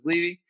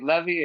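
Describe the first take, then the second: First: The name has an American English pronunciation. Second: The name has a Latin American Spanish pronunciation. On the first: This is how it is said in the United States. "in the United States, it was Levy" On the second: This is how it is said in Latin America. "in Latin America, they say Levy"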